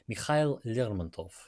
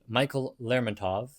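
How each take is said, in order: First: The name is said with Russian pronunciation. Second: The name is said with English pronunciation.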